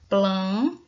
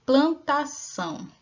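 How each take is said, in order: First: Plantação said briskly, louder; plantação clipped. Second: Plantação stretched slowly, syllables pulled apart; plantação spaced out for a class. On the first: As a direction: pop out plantação in one quick push. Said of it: "quantas vezes eu separei aqui essa palavrinha". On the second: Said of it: "Quantas sílabas tem a palavra plantação?". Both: Shown as a demonstration.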